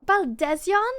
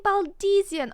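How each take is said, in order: First: Baldesion as bal-DEZ-yon, high, loud and questioning; corrected pronunciation. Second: Baldesian as bal-DEE-zee-un, high and loud; mistaken pronunciation. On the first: Streamer echoing the game's name for it, surprised bal-DEZ-yon for Baldesion. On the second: Streamer quoting own old mistake, Baldesian said bal-DEE-zee-un. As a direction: say Baldesian with a long DEE and falling end. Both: Shown as a demonstration. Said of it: "I've been saying Baldesian".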